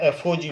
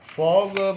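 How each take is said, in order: First: The term is said letter by letter. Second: The term is said as one word. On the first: The speaker calls it right. "एफ ओ जी बोलना चाहिए" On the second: The speaker calls it wrong. "फॉग बोलना गलत है"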